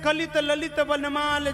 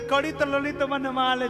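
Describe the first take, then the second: First: The l sounds are said as a plain l. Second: The l sounds are said as a retroflex flap.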